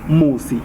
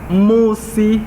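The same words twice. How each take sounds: First: The first syllable is short and unemphasized. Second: The first syllable is stretched and emphasized. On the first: "you don't put an emphasis on the mu" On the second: "a prolongation of the mu"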